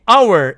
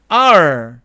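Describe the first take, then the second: First: Both vowel sounds in the word are pronounced. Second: One of the vowel sounds is dropped. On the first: "hour의 사전식 발음은 당연히 hour 이렇게 됩니다" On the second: "실제로는 ... 모음 우어가 탈락된 거죠"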